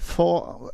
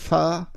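First: The vowel sounds like an o. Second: The vowel sounds like an a.

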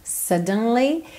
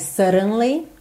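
The two takes are said the same way.

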